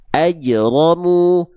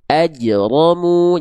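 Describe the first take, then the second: The two takes are said the same way.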